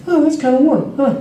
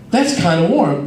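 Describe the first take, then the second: First: Higher, intrigued musing; curious surprise. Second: Said in the usual way. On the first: Retold or imitated. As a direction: sound pleasantly intrigued. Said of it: "in my head". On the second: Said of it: "I'm like".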